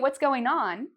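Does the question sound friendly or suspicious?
friendly. It sounds light and friendly, like a greeting. It is a casual greeting asking how things are.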